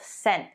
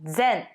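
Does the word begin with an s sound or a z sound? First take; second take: s; z. First: It begins with a hissing s sound. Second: It begins with a buzzing z sound. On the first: The speaker calls it wrong. "not sen" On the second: The speaker calls it right. "It's zen"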